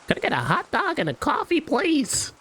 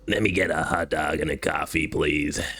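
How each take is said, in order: First: It is said in a cheerful, upbeat voice. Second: It is said in a flat, depressed voice.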